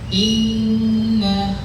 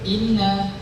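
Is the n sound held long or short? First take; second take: long; short. First: The n sound is held long and nasal. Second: The n sound is short, not held. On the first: The speaker calls it right. "sampai dia sempurna" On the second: The speaker calls it wrong. "di situ tidak ada tasydidnya"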